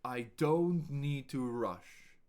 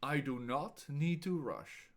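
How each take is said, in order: First: Firmer and slower; slow projected take; slow but louder. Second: Each word separate, do not apart; clear, deliberate do not; spelled out do not. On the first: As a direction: say it clearly with more voice. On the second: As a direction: give do not full weight. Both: Shown as a demonstration. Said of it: "Listen and repeat out loud".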